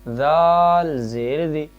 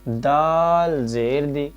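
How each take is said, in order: Both takes have the same delivery.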